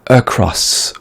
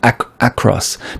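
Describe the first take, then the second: First: The first vowel is a weak 'uh' sound. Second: The first vowel is a full 'a' sound. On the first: The speaker calls it right. "ce mot-là se prononce « e »" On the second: The speaker calls it wrong. "Sébastien a tendance à le prononcer ac across parce qu'il s'écrit avec un A"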